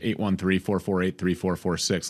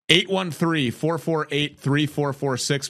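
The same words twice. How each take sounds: First: The number is said at a quicker pace. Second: The number is said at a slower pace.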